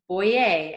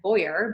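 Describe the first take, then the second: First: The name is pronounced the French way. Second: The name is pronounced the English way. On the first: The speaker calls it right. "it's Boyer, and I say that because it's French" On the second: The speaker calls it wrong. "looks like Boyer"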